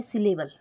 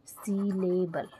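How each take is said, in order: First: Said in the usual way. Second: syllable stretched out syllable by syllable; slow dictation. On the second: Shown as a demonstration. Teacher dictating to note-takers, syllable in slow syllables. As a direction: say syllable very slowly, each syllable separate. Teacher repeats term slowly for writing.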